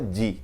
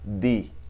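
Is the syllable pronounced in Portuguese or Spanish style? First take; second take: Portuguese; Spanish. First: The d is pronounced in the Portuguese style. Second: The d is pronounced in the Spanish style. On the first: The speaker calls it wrong. "A gente não fala di" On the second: The speaker calls it right. "mas fala di"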